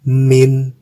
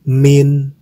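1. Diucapkan sendiri, berakhir dengan bunyi n. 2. Diucapkan sendiri, berakhir dengan bunyi n.

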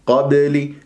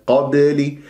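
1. الباء مُطلقة مع قلقلة خفيفة. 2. الباء مُطلقة مع قلقلة خفيفة.

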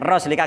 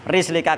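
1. Vokal pertama adalah bunyi 'a'. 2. Vokal pertama adalah bunyi 'i'. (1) "bi fathiyah ... bisa dibaca fathah juga" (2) "bikasri roi ... sing luwih sah nggih iku pakai kasrah"

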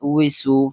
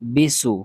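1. সিলেবলটি w ধ্বনি দিয়ে শুরু হয়। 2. সিলেবলটি b ধ্বনি দিয়ে শুরু হয়। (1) "ওয়াউজের উই" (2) "এগুলা উচ্চারণ হবে না"

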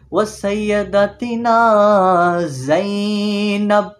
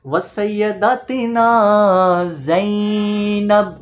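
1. Zainab में z ज़ोर से बोला जाता है। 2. Zainab में z ज़ोर से बोला जाता है।

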